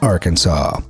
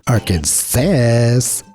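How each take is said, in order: First: The final s is silent. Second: The final s is pronounced. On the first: The speaker calls it right. "only one right way to pronounce the state name, with the final S being silent" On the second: The speaker calls it wrong. "Those would be both considered illegal"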